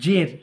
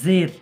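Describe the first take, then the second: First: The word begins with a j sound. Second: The word begins with a z sound. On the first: The speaker calls it wrong. "জিম দিয়ে উচ্চারণ করলে হবে" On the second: The speaker calls it right. "এই জাটা দিয়ে উচ্চারণ করব"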